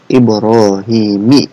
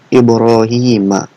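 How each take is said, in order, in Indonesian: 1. Nama itu berakhir dengan vokal 'i'. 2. Nama itu berakhir dengan vokal 'a'. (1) "bukan dibacanya"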